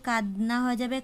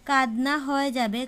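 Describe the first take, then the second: The two takes are said the same way.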